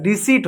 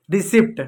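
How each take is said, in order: First: रिसीट as "ri-seet", no P; long "ee" straight into T in रिसीट; silent P. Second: रिसिप्ट with the P sounded; wrong pronunciation. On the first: Teacher gives the correct word with silent P. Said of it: "पी silent होता है". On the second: Teacher shows the error, mispronounced with audible P. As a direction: pop a P before T in रिसिप्ट. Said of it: "गलत होता है". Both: Shown as a demonstration.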